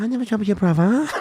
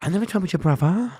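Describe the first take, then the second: First: High timid denial, laughing; mock-scared denial through laughter. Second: High, small, mock-scared denial; feigned timid denial. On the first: Playing dumb to the gang member, laughing timid denial. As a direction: fake being shook, can't keep a straight face. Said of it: "I said". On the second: Playing dumb to the gang member, high timid denial. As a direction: pretend to be shook. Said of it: "So I said".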